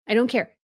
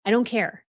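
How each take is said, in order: Both takes have the same delivery.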